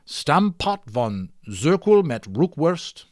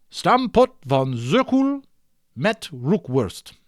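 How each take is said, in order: First: Stampot van Zirkel met Roekwurst said slowly with a light Dutch flavour, Zirkel stretched; mock Dutch. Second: Stampot van Zirkel met Roekwurst drawn out slowly, Zirkel pitched much higher in a put-on Dutch sound; hammed-up Dutch. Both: Shown as a demonstration. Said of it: "Dutch language, very delightful sounding".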